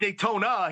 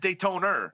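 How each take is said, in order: First: The word ends in a plain 'ah' sound. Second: The word ends in an 'er' sound. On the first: "instead of saying Daytona" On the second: "He puts an er at the end"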